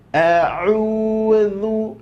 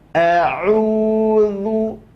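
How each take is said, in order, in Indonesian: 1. Konsonan tengah adalah bunyi seperti th bersuara. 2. Konsonan tengah adalah bunyi seperti th bersuara.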